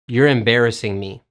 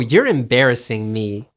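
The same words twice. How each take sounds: First: It is said flatly, with level, unsmiling pitch. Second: It is said smiling, with lively, changing pitch. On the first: It sounds like a demand to stop. The speaker calls it wrong. "you shouldn't say it like" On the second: It shows pleased shyness at the compliment. The speaker calls it right. "The key is to smile and to change your pitch"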